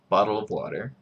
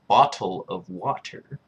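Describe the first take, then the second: First: The t sounds come out like soft d's. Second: The t sounds are fully pronounced. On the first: "Utahns say the D. ... That's what I would say" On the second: "strictly speaking, it's bottle of water... Pronunciating the T's"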